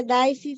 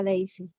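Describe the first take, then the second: First: Daisy said as DAI-si, first vowel like "eye"; spelling pronunciation. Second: Daisy said as DEI-si, first vowel like "day"; actual name pronunciation. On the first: Student explaining her name's spelling, Daisy as DAI-si. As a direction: read Daisy as it is written, DAI-si. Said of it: "Se escribe Daisy". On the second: Student correcting how her name sounds, Daisy as DEI-si. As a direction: pronounce Daisy DEI-si, not as written. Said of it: "se pronuncia Daisy". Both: Shown as a demonstration.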